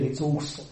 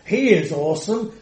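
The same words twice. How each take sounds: First: Soft throwaway "it's awesome", the word "awesome" tossed off lightly; a gently mocking imitation of everyday "awesome"; mocking casual awesome. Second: "He is awesome" lifted higher, with reverent weight on "He"; the earnest meaning of "awesome"; emphatic awesome. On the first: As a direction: mimic people calling a meal "awesome". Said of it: "When I hear people saying". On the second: Real, not acted. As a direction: declare "awesome" in its true, reverent sense. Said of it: "keep the word awesome just for God".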